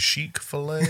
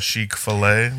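First: The name is said in its usual plain way. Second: The name is said in a fancy French style. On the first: The speaker calls it right. "how else wouldn't it be Chick-fil-A?" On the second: The speaker calls it wrong. "It's like a the bistro Chick Fil A version"

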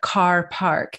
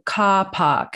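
First: The R sounds are pronounced, American style. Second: The R sounds are dropped, British style.

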